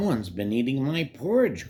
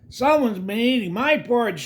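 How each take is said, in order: First: It is said in a deep, growling voice. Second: It is said in a high, squeaky voice.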